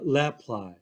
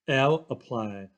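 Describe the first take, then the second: First: The L is blended into one word. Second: The L is said as a separate letter.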